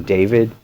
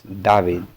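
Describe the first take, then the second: First: Said in the usual way. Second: "David" said Russian-style, without the English long A; Russian pronunciation. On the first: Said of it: "sound that sounds like A". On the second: Shown as a demonstration. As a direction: say "David" as "Dah-veed". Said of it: "there's no sound that sounds like A".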